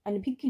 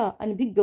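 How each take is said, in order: First: अनभिज्ञ ending in a gy glide; wrong pronunciation. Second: अनभिज्ञ with an open ending; correct pronunciation. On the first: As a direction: say अनभिज्ञ as an-bhig-gyi. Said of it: "अनभिज्ञ नहीं होता". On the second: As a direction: say अनभिज्ञ as an-bhig-gya. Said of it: "अनभिज्ञ होता है". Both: Shown as a demonstration.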